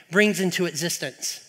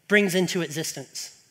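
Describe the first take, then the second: No difference in how they are said.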